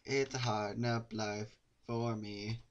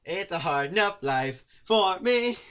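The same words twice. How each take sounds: First: Slow, flat deadpan; deadpan repeat. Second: High, loud, slow melodrama; hammed-up lament. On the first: Pretend. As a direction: drag it out deadpan. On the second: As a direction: wail it like a tragic hero. Dramatic lament line.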